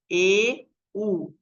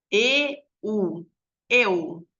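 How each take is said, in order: First: Each vowel read slowly on its own; slow separate vowels. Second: E, U run together into eu; vowels blended faster. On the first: Child reading the vowels one by one, slowly. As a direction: sound out E and U apart, like a beginner. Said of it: "Agora lê mais rápido". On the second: Child reading faster so the vowels join into eu. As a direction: read the vowels faster until they merge. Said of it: "Ela vai falar". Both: Shown as a demonstration.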